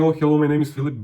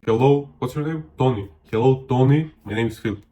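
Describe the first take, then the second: First: Quick, breezy introduction; hurried hello with no gap; self-focused greeting. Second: Hello that pauses for their name; ask, then repeat the name back with emphasis; interested, unrushed introduction; attentive greeting. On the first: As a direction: rattle off your own name in one go. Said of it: "instead of saying". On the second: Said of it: "be like". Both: Shown as a demonstration.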